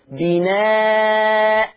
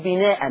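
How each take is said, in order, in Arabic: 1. تنتهي الكلمة بألف مدّ طويلة. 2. تنتهي الكلمة بتنوين الفتح (-an). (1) "هبدل التنوين المفتوح بألف" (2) "ما ينفعش أقف بالتنوين"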